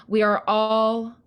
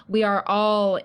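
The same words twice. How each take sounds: The two takes are said the same way.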